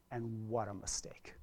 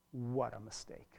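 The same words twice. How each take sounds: First: Hushed, breathless whisper of regret. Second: Said in the usual way. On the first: Real, not acted. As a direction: drop to a whisper on what a mistake. Parents turning backs on kids.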